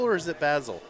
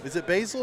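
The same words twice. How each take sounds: First: Basil with a short "a", BAZ-ul; alternative pronunciation of Basil. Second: Basil with a long "ay", BAY-zul; first pronunciation of Basil. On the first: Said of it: "say it both ways". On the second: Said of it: "saying our kicker's name wrong". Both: Shown as a demonstration.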